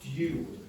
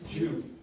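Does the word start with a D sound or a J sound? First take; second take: D sound; J sound. First: It starts with a plain D sound. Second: It starts with a J sound. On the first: "In standard pronunciation, that is due"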